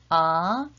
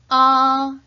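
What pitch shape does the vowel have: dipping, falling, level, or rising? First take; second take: rising; level. First: The pitch rises from mid to high. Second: The pitch stays high and level. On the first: "이성은 중간 음에서 위로" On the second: "일성은 높고 평평하게"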